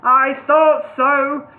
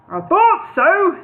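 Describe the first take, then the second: First: Slow, louder knowing; drawn-out knowing. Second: Slow knowing smile. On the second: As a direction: say it knowingly, slowly. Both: A narrator's reading. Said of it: "smiling knowingly".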